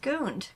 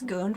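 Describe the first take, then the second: First: The vowel is an open 'uh' sound. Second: The vowel is a rounded 'oo' sound. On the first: The speaker calls it wrong. "I just thought it was Gund, but it's not" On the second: The speaker calls it right. "like in Germany, it is Gund"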